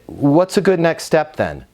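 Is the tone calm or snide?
calm. It is asked in a calm, easy tone.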